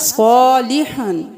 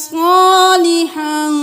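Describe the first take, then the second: First: The first vowel is said short. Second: The first vowel is stretched long. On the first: The speaker calls it wrong. "सालिहन नहीं करना" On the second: The speaker calls it right. "अलिफ मद्दा है यहाँ पे खींचना है"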